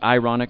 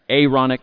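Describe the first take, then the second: First: The word begins with an 'eye' sound. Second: The word begins with an 'air' sound. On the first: The speaker calls it wrong. "It's not the ironic" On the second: The speaker calls it right. "it's the Aaronic priesthood"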